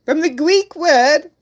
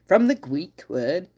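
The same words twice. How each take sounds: First: Higher, slower retry. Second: Said in the usual way. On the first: Real, not acted. Streamer retries the phrase, higher and slower. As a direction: lift it up, slower. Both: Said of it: "I can't pronounce my R's".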